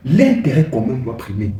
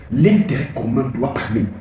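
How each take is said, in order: Both takes have the same delivery.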